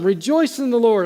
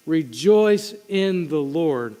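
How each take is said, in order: First: Rejoice said higher and louder; urgent exhortation. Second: Very slow, every word weighed; slow and deliberate. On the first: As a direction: call out rejoice with lift. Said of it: "I'm gonna keep saying this". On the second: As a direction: lay out rejoice in the Lord slowly, word by word. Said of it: "He's going to continue to tell them". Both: Shown as a demonstration.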